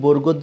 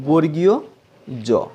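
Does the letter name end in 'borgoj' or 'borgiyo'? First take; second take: borgoj; borgiyo. First: The first word ends in a short 'goj' sound. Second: The first word ends in a 'giyo' sound. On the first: The speaker calls it wrong. "যেটা ভুল" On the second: The speaker calls it right. "এর সঠিক উচ্চারণ"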